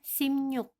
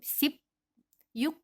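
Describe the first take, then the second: First: It is said as simnyuk, with m and ny. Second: It is said as sip then yuk, with p. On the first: The speaker calls it right. "seakan-akan yang di bawahnya itu menjadi miem. Dan yang di atas ini menjadi nien" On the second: The speaker calls it wrong. "bukan seperti sip, yuk, bukan seperti itu"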